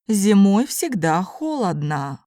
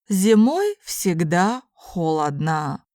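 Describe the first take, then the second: First: It is spoken at a normal conversational pace. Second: It is spoken slowly and carefully. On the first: "then in normal speed Russian" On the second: "first in slow Russian"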